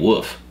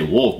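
First: The word is said without any L sound. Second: The word is said with a clear L sound. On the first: The speaker calls it wrong. "but you were saying woof" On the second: The speaker calls it right. "That one I would say wolf"

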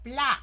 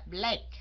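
First: The vowel is said with the mouth wide open. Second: The vowel is said with the mouth less open. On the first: The speaker calls it right. "phải hả miệng ra" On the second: The speaker calls it wrong. "chứ không phải là"

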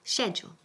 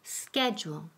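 First: It is said in a British accent. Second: It is said in an American accent. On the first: "Y la forma inglesa es schedule" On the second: "Yo digo schedule, que es la forma americana"

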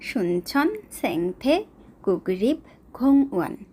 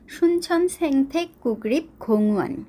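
First: The name is said slowly. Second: The name is said at normal speed.

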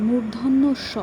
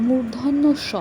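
The two takes are said the same way.

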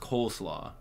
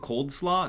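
First: It has no d sound before slaw. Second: It has a d sound before slaw. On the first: The speaker calls it right. "It's coleslaw" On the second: The speaker calls it wrong. "You guys pronounce it cold slaw? No one does"

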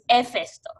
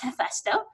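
First: The word starts with no H sound. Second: The word starts with an audible H sound. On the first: This is how a Romance-language speaker would say it. "I would pronounce this HeFESTO, right? Because we don't aspire our H's" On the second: This is the accepted mixed English form of the name. "sort of combination of English and so on, this is pronounced HeFESTO"

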